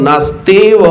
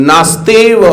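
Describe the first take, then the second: The two takes are said the same way.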